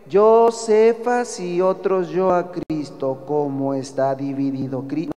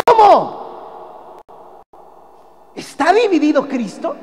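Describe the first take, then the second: First: Said in the usual way. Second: High, loud astonished ¿Cómo? rising on Cristo; the right way to read the verse, full of admiration; amazed exclamation. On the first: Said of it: "no puede usted leer". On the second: Shown as a demonstration. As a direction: ask it in stunned disbelief. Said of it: "pues ya no entendió, porque así no es".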